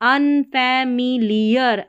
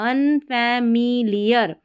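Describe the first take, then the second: No difference in how they are said.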